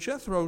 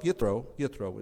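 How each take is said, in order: First: The name begins with a J sound. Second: The name begins with a Y sound. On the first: "There's no J in Hebrew" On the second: "Yethro is how we pronounce it"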